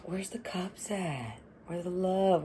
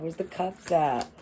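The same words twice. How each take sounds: First: Breathy whispered question, almost no voice. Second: Said in the usual way. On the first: Real, not acted. Reader whispering to herself over the cards. Whispered aside during tarot reading.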